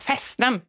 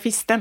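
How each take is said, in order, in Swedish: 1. Den betonade vokalen låter som ett öppet 'e'. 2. Den betonade vokalen låter som ett slutet 'i'. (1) "så måste man säga lite göteborgskt också. Så här" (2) "Alltså man kan inte säga fisten"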